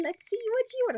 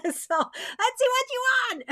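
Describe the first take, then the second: First: High, cackly witch voice; a witchy, sly singsong. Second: Laughing. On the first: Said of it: "It sounds like a witch". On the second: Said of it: "Oh, I don't wanna be a witchy witch". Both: Real, not acted.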